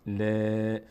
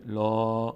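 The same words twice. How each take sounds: First: "ل" held as a light, front "laa"; thin lam. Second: "لا" held as a dark, rounded "law"; full lam. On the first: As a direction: spread the mouth sideways on long "ل". («ل» باریک و کشیده) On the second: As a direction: open the mouth upward on long "لا". («لا» پر و کشیده) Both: Shown as a demonstration. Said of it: "ببینید فرقش چیه؟".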